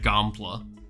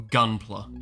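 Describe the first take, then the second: First: The word is pronounced lazily and loosely. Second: The word is pronounced more carefully and clearly. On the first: The speaker calls it wrong. "I'm starting to pronounce things a lot more lazily" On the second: The speaker calls it right. "if uh, you're preferring me to pronounce it a bit better"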